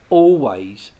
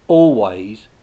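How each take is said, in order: Both takes have the same delivery.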